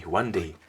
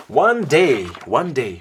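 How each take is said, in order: First: Said in the usual way. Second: Big booming "One day"; storyteller booming "One day"; loud dramatic opener. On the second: A narrator's reading.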